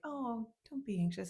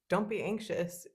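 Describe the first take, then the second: First: It sounds like a light, casual remark. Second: It sounds like a firm command.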